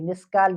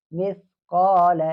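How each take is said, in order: First: مسکال with a plain s sound, marked as the wrong form; teacher showing the common error; wrong miskaal. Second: Teacher modelling the correct form; correct misqaal. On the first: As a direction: say مسکال with an s, as the mistake. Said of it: "کال والا یہ غلط ہے". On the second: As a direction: stretch مثقال slowly, not مسکال. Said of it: "اس کو مسکال نہیں پڑھیں گے". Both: Shown as a demonstration.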